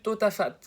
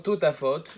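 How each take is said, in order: First: The last vowel is pronounced as 'a'. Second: The last vowel is pronounced as 'o'. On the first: It follows the written letters without the second vav. "on l'aurait lu totafat, parce qu'il n'y a pas le deuxième vav" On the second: It follows the customary reading. "le mot totafot dans le Kriyat Shema"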